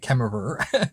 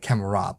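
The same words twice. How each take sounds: First: It is said the American way. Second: It is said the Australian way.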